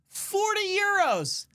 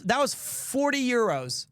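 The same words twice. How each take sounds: First: High, drawn-out exclamation; incredulous high wail; outraged repeat. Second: Said in the usual way. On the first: Acted. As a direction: stretch it out in disbelief, pitched way up.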